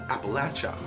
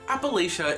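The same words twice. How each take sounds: First: It uses the southern regional pronunciation. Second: It uses the northern regional pronunciation. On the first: "The southern pronunciation is" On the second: "is a northern pronunciation"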